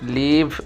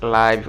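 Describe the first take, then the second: First: The vowel is a short 'ih' sound. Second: The vowel is a long 'eye' sound. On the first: "অনেকে লিভ উচ্চারণ করে" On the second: "অনেকে লাইভ উচ্চারণ করে"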